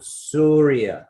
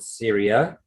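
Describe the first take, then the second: First: The first vowel sounds like 'oo'. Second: The first vowel sounds like 'ear'. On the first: "They call it Surya" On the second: "they don't call it Syria"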